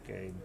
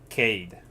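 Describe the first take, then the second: First: The name begins with a soft G-like sound. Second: The name begins with a hard K sound. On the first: The speaker calls it wrong. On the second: The speaker calls it right.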